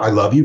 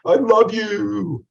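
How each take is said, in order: First: Said in the usual way. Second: Drawn-out, high, loud I love you; gushing love declaration. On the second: Shown as a demonstration. Teacher showing students how delivery changes words, gushing. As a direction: croon it slowly with exaggerated feeling. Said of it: "there's a huge difference".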